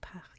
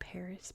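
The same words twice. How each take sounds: First: It is said with French pronunciation. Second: It is said with American English pronunciation. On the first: This is how it is really said. "but it's actually Paris" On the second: This is how Americans say it. "we say Paris"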